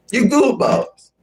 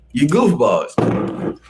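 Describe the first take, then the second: First: A high, mocking squeal; high teasing squeak. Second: Slow drawn-out scolding. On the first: Streamer teasing chat in a high mock voice. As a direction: pitch You goofballs way up, playful. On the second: Pretend. Streamer teasing chat, slow drawn-out scold. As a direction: stretch goofballs out slowly and lazily. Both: Streamer tries the line two ways.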